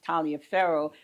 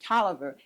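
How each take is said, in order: First: Every written syllable of the name is pronounced. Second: The name is said in a short, contracted form. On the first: The speaker calls it wrong. "you would think it would be pronounced Taliaferro" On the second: The speaker calls it right. "pronounce it Tolliver"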